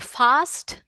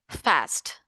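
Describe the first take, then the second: First: It is said in a British accent. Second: It is said in an American accent. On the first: "British people say fast" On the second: "Americans say fast"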